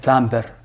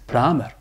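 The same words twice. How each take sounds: First: The b sound is pronounced in the middle. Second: The b sound is silent in the middle. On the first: The speaker calls it wrong. "don't say a plumber" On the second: The speaker calls it right. "B is silent"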